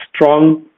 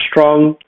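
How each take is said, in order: Both takes have the same delivery.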